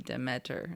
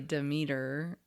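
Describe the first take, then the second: First: The name is sounded out as it is spelled. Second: The name is said the usual, common way. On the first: "saying it phonetically, it would be Demeter" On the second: "we say Demeter"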